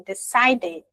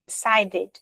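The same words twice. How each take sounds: First: "Decided" with a clear "ed" ending; slow decided. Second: Said in the usual way. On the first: Shown as a demonstration. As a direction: pronounce "Decided" as de-SAI-ded. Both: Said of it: "termina com T ou D".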